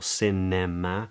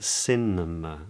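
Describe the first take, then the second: First: The unstressed vowels are said as full vowels. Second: The unstressed vowels are reduced to schwa. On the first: The speaker calls it wrong. "or cinema" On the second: The speaker calls it right. "notice how the schwa uh, is present"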